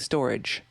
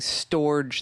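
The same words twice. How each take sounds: First: The name is said like the word 'storage'. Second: The name is said like 'storj' with a J. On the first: The speaker calls it right. "but you're actually saying storage" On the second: The speaker calls it wrong. "I thought you were actually saying storage, ... storage with a J"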